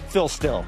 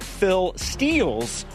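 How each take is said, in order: First: The name is said quickly and run together. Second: The name is said slowly and carefully. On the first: The speaker calls it wrong. "if you say it fast" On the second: The speaker calls it right. "so you have to slow down"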